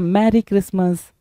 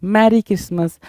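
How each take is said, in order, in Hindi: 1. पहला शब्द 'marry' जैसा सुनाई देता है। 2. पहला शब्द 'marry' जैसा सुनाई देता है।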